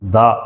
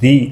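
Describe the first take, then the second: First: The word is said with a short 'duh' vowel. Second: The word is said with a long 'dee' vowel. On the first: The next word begins with a consonant sound. "Next వచ్చేటువంటి word constant sound అయితే దా అనేది ఉపయోగిస్తాం" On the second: The next word begins with a vowel sound. "దాని ముందు మనము ది అని మనం pronounce చేస్తాం"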